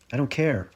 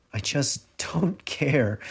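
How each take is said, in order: First: Said in the usual way. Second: Slow, with a laugh breaking through; bitter laugh. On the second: A narrator's reading. Narrator on the bathroom floor, laughing through despair. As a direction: laugh at your own despair, slowly.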